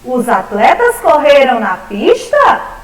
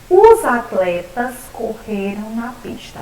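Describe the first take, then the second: First: It is said as a question. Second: It is said as a plain statement.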